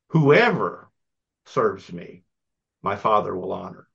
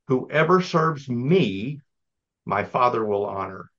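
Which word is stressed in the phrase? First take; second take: whoever; me. First: The word "whoever" carries the main stress. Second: The word "me" carries the main stress. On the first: Anyone who serves is honored, inclusively. "What if we put the emphasis on the first word, whoever" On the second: Only those who follow this one way are honored. "we probably often read this with the emphasis on the word me"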